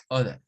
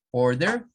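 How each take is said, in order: First: Non-rhotic order; British order. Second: American order; rhotic order. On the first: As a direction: order short, no R, oda. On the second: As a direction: order with the R sounded, rising and louder. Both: Shown as a demonstration. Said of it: "se aprecia un cambio".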